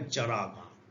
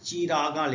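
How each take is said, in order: First: The short 'i' vowel after the first consonant is dropped. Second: A short 'i' vowel follows the first consonant. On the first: This is how the word is read aloud. "लेकिन हम पढ़ेंगे चरागा" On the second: This is how the word is written. "जैसे चिरागा लिखा हुआ है"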